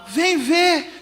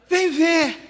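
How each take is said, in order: The two takes are said the same way.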